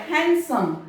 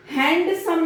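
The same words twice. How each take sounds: First: हैंडसम said "hansum" with the d silent; right हैंडसम, no d; correct handsome. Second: हैंडसम said "hand-some" with the d sounded; wrong handsome. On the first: Teacher models correct handsome for students. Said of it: "यहाँ पर डी silent होगा". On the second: Teacher warns students against sounding the d. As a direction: mistaken हैंडसम, d pronounced clearly. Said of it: "हैंडसम नहीं बोला जाएगा". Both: Shown as a demonstration.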